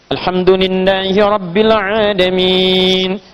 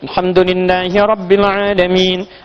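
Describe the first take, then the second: First: Long vowels are held medium, about four counts. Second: Long vowels are held briefly, about two counts.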